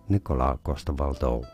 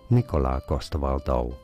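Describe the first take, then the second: First: The name is said with Danish pronunciation. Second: The same.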